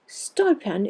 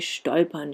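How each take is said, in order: First: It begins with a sharp st sound. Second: It begins with a sht sound. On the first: "They are said to stolpern übern spitzen Stein" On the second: "they don't say stolpern"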